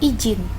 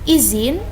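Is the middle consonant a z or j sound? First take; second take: j; z. First: The middle consonant is a j sound. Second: The middle consonant is a z sound. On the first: The speaker calls it wrong. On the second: The speaker calls it right. "yang benar izin"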